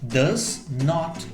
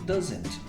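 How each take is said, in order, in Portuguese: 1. É dito como duas palavras separadas e completas. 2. É dito como uma palavra contraída.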